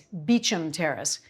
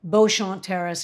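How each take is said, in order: First: The name is pronounced in an English style. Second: The name is pronounced in a French style.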